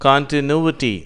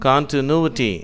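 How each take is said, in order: Both takes have the same delivery.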